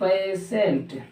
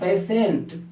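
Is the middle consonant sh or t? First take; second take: sh; sh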